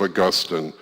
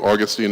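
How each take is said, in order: First: The stress is on the second syllable. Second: The stress is on the first syllable. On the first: "Augustine is the more British pronunciation" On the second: "why am I calling him Augustine"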